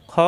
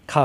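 First: খ said short from the throat, no long a; short throaty kha. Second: খা with a long drawn a, the wrong way; long a mistake. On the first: Teacher showing students the correct short খ. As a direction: keep খ clipped and guttural. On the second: Teacher demonstrating the wrong long খা to students. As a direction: stretch খা into a long aa to show the error. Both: Shown as a demonstration. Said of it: "খা হবে না".

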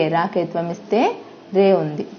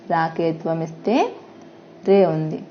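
The two takes are said the same way.

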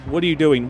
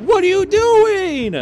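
First: Said in the usual way. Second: High, loud exasperated yell at the team; angry at teammates hiding in lockers, a frustrated yell. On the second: Real, not acted. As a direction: throw your hands up and shout it.

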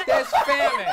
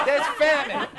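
First: "famine" squealed much higher and louder through a laugh. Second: Said in the usual way. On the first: Acted. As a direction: squeal "There's famine." high, cracking into laughter.

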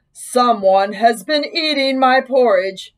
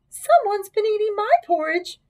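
First: Slow, big bear voice; great big Papa Bear voice. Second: High-pitched mother bear; middle-sized Mama Bear voice. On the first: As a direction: boom it out slowly like a big bear. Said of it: "said in his great big voice". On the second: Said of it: "said in her middle-sized voice". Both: A narrator's reading.

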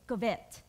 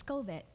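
First: Covet with the stress on the second syllable, co-VET; accented covet. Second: Covet with the stress up front, CO-vet; corrected covet. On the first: Preacher shows how she grew up saying it, covet as co-VET. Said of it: "I grew up saying it". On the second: Preacher repeats her husband's correction, covet as CO-vet. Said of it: "That's not how you say it". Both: Shown as a demonstration.

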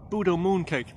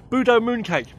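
First: Said in the usual way. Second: Budo moon cake punched out louder and higher; louder, higher repeat. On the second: Shown as a demonstration.

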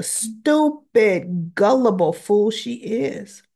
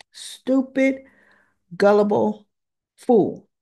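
First: STUPID stretched out, then gullible fool run together; drawn-out STUPID. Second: Stupid... gullible... fool, a pause after each word; word-by-word emphasis. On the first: Recapper scorning Willow for being duped, "stupid" drawn out with emphasis. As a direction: lean long on "stupid", carry on through "gullible fool". Recapper berates the character's foolishness. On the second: Recapper repeating her verdict on Willow, emphatic and word by word. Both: Real, not acted.

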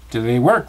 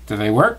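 First: A bit louder repeat for a deaf friend; mildly raised repeat. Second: Said in the usual way. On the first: Acted. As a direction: say it again so he can hear. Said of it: "the boy repeated". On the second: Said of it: "Christopher Robin asked".

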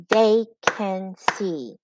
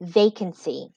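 First: "They can see" in three slow separate beats; split into syllables. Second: Said in the usual way. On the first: Shown as a demonstration. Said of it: "clap to find out how many syllables". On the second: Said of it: "Okay, first word".

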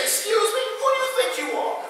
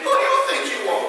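First: Much higher, fast, offended "excuse me"; indignant attitude. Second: Fast, sassy challenge with a laugh; sassy attitude. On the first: Preacher acting out a stranger stepping on his foot, indignant and high. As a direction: play someone whose foot just got stepped on. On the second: Preacher demonstrating the attitude line for the congregation, sassy and fast. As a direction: toss it at your neighbor with attitude. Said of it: "I need some attitude". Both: Shown as a demonstration.

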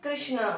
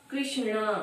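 First: कृष्णा repeated softly, with ष्ण clear; teacher drilling कृष्णा; repeat demo. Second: कृष्णा with a clear retroflex ष्ण; teacher sounding out कृष्णा for the class; pronunciation demo. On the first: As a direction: say कृष्णा once more. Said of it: "क्या हो गया ये". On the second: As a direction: model कृष्णा softly. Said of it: "तो क्या हो जाएगा". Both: Shown as a demonstration.

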